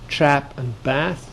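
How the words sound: It is said in an American accent.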